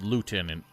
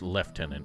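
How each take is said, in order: First: It is said the way it is spelled. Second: It is said with the British pronunciation. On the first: "the word is spelled lieutenant" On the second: "but somehow pronounced lieutenant"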